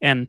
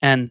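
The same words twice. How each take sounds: The two takes are said the same way.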